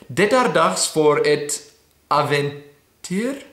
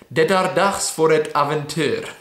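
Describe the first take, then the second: First: Slow, questioning rise on "aventyr"; unsure attempt. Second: "aventyr" ending on a falling tone; settled retake. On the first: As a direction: sound out the phrase slowly, ending on a questioning "aventyr". Unsure attempt at Swedish phrase. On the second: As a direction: read it through as a statement, falling on "aventyr". Settled retake of the Swedish phrase. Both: Shown as a demonstration.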